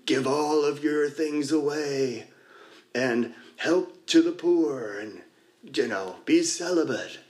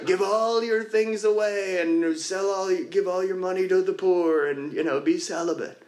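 First: Slow, drawn-out divine command, only a little changed; hint of a solemn God, slowed right down; lightly voiced God. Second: Higher mock God voice. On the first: Sharing at a meeting, retelling a spoof skit's God, slow and solemn. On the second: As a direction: lightly play God repeating the order, higher. God repeats the command.

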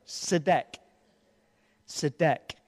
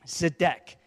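First: "Zedek" said softly, ZE-dek with stress on the first syllable; pronouncing Zedek. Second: "Zedek" said slowly, ZE-dek with stress on the first syllable; pronouncing Zedek. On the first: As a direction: repeat "Zedek" as a quiet model. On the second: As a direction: model "Zedek" clearly for the congregation to repeat. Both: Shown as a demonstration. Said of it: "Can you say that word?".

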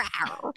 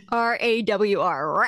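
First: Rawr whispered with no voice; breathy rawr. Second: R A W R, each letter named slowly; spelled out letter by letter. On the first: Showing off her beloved rawr, whispered as a tiny growl. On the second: Spelling out rawr for her co-host, slowly letter by letter. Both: Shown as a demonstration. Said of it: "you like going rawr".

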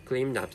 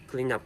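No difference in how they are said.

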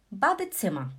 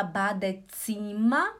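First: "Badezimmer" with a short, quick "zimmer"; quick double consonant. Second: "Badezimmer" with a drawn-out "zim-mer"; wrong, syllables apart. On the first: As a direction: run the end of "Badezimmer" together, short I before the double M. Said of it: "Duas consoantes juntas você fala rápido". ("Badezimmer" com "zimmer" curto e rápido) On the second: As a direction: split "Badezimmer" wrongly, stretching the I before the double M. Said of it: "Você não fala Badezimmer". ("Badezimmer" errado, com "zii-ma" esticado) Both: Shown as a demonstration.

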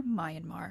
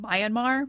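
First: Myanmar. said quietly with a falling end; Myanmar. dropped low and soft, decided; settled statement. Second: Myanmar? said as a rising, unsure question. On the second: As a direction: end Myanmar? on a questioning rise. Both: Shown as a demonstration. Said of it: "I'm probably gonna keep butchering the name".

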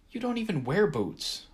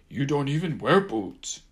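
First: Exasperated eye-roll retort. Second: High, loud mocking mimic; mocking imitation. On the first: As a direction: sigh it out, unimpressed. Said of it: "rolling my eyes". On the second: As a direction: parrot him back, teasing. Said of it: "Gumbaby mocked". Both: A narrator's reading.

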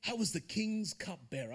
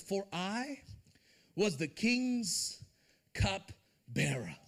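First: Said in the usual way. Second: Drawn out word by word, "cupbearer" dropping low; slow emphatic reading. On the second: Shown as a demonstration. Preacher stressing a Bible detail, slow and weighty. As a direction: linger on "was the king's cupbearer" very slowly. Reading the verse's last words.

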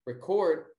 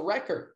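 First: Record said ri-CORD, stress on the second syllable; verb record. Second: Record said REC-ord, stress on the first syllable; noun record. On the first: Teacher showing the class the verb, stressed ri-CORD. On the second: Teacher contrasting the noun for the class, stressed REC-ord. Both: Shown as a demonstration. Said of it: "but there's also record".

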